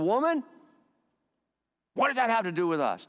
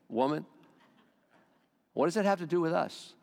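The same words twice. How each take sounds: First: It is said in a harsh, rude tone. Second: It is said in a gentle, respectful tone.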